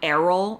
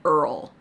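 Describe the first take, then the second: First: The name is said as two syllables. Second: The name is said as one syllable. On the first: The speaker calls it right. "I will say it correctly" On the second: The speaker calls it wrong. "I was mispronouncing his name"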